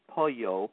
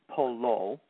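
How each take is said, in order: First: It is said the Spanish way. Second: It is said with every letter sounded. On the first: The speaker calls it wrong. "not to be pronounced like Spanish, which is pollo" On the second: The speaker calls it right. "just pronounce all the letters as you do in most Italian words"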